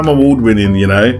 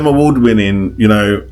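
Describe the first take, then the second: First: It sounds playful and joking. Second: It sounds serious and arrogant. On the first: The boast is meant as a joke. "there's that joke" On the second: The boast is meant seriously. "I really don't even like the second one"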